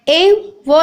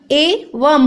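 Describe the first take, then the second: First: "ए व" with no final m sound; wrong pronunciation. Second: "ए वम" slowly, closing on m; correct pronunciation. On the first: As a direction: end "ए व" on an open va. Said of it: "ए व नहीं होता". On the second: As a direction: finish "ए वम" with a clear m. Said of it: "ए वम होता है". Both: Shown as a demonstration.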